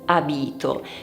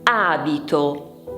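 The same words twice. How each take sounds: First: The stress is on the second syllable. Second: The stress is on the first syllable. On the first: The speaker calls it wrong. "e non abito" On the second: The speaker calls it right. "si dice abito ... l'accento va sulla A"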